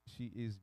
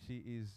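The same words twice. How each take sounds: The two takes are said the same way.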